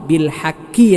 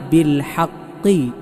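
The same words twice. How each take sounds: First: The K sound is made further forward in the mouth. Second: The K sound is made deep in the throat. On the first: The speaker calls it wrong. "കാഫായിട്ടല്ല" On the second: The speaker calls it right. "ഖാഫ്"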